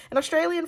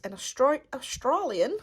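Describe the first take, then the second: First: Said in the usual way. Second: Slipping briefly into an Australian accent; terrible Australian accent, higher pitched; accidental Australian accent. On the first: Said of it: "I don't know why I went into an Australian accent". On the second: Real, not acted. Unboxer reading the artist's bio, Australian accent by accident. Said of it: "went into an Australian accent there".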